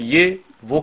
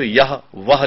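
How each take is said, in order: First: "ये वो" as open ye and vo; spoken-form pronunciation. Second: "यह वह" with the final h sounded; written-form pronunciation. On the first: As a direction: say ये and वो without any h. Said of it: "radio पर हम कहते हैं". ("ये वो" बोलचाल वाला उच्चारण) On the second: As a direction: say यह and वह as spelt. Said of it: "हम लिखते हैं तो यह वह लिखते हैं". ("यह वह" लिखित रूप जैसा उच्चारण) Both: Shown as a demonstration.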